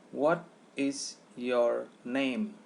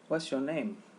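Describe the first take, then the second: First: The words are said separately. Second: The words run together into one unit.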